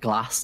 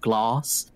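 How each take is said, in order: First: It is said in a Northern English way. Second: It is said in a Southern English way.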